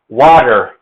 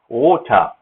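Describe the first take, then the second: First: It has an American accent with a d-like t. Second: It has a British accent with a rounded vowel. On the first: "American English decided to change the T to a D" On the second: "British or U K English ... they pronounce it water"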